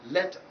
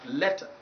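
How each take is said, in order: No difference in how they are said.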